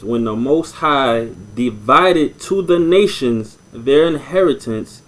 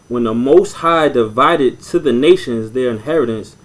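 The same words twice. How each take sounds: First: It is read slowly and deliberately. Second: It is read at a normal pace.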